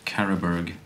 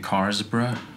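First: The name is said like Carolberg. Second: The name is said like Carlsberg. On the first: The speaker calls it right. "Apparently it's Carolberg" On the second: The speaker calls it wrong. "I've been saying Carlsberg because it just sounds nice"

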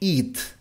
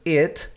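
First: The vowel is long and tense. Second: The vowel is short and relaxed. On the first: The speaker calls it wrong. "no it" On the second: The speaker calls it right. "la pronunciación de esto es it"

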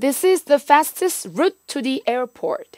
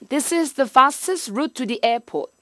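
First: It is said in a plain American accent. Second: It is said in a British accent without R.

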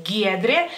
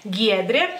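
No difference in how they are said.

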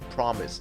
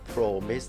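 First: The first syllable is said as short 'prom'. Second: The first syllable is said like 'pro' in protect. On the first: The speaker calls it right. "แต่จริงคำนี้ต้องอ่านพร้อมกัน, prom, เป็น, promise" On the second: The speaker calls it wrong. "หลายท่านอ่านผิดอ่านเป็น, promise, พอไปสะกด, pro, เหมือน, protect"

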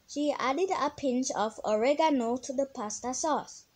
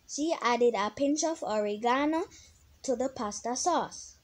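First: It is said with an American accent. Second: It is said with a British accent.

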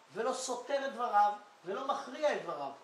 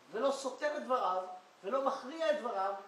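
The two takes are said the same way.

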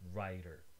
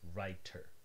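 First: The middle consonant is a light tongue tap. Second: The middle consonant is a full T sound. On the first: "You probably use an alveolar tap, a light touch of the tongue" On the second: "you probably don't say these words with a T in the middle"

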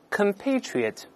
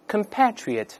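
First: It is said with an American pronunciation. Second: It is said with a British pronunciation. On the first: "这是美音" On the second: "英式发音依然发i"

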